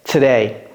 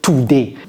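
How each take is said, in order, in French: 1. La première syllabe 'to' n'est pas accentuée. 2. La première syllabe 'to' est accentuée.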